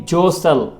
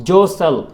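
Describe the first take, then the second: No difference in how they are said.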